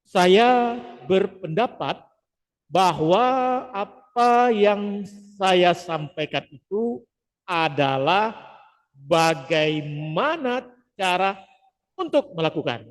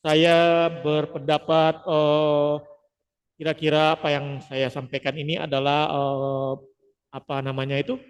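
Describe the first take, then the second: First: Slow and measured, pausing between phrases; slow, paused delivery without fillers; deliberate pauses instead of fillers. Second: Hesitant speech with fillers; full of verbal fillers. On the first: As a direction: replace each filler with a clean pause. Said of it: "Nah, kita ganti". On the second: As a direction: stumble through with eh and um. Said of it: "contohnya ketika kita menghindari verbal filler". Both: Shown as a demonstration.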